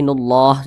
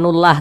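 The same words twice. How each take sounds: First: The l sound is heavy and thick. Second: The l sound is light and thin. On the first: The speaker calls it right. "tapi nullah dibaca tebal seperti itu" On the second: The speaker calls it wrong. "jangan nullah"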